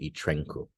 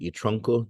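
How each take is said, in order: First: The noun's first vowel shifts to a front vowel. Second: The noun's first vowel stays a back vowel. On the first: Most speakers do not say it this way. "They would not say y trenco" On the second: This is how most speakers say it. "they would say y tronco"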